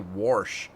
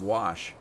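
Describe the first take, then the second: First: An r sound comes before the 'sh'. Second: No r sound comes before the 'sh'. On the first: "they also say Warsh instead of Wash" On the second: "instead of Wash"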